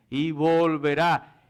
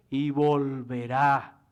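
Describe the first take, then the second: No difference in how they are said.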